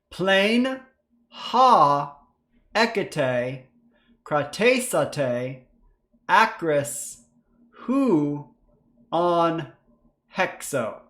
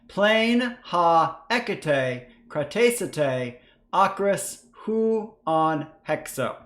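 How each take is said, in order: First: It is read slowly. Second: It is read fast.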